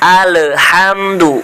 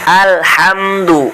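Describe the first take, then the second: First: The L bounces with a short vowel after it. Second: The L is held with the tongue before moving on. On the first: The speaker calls it wrong. "dibaca mantul. Bacanya seperti ini, yang salah" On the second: The speaker calls it right. "ditahan terlebih dahulu"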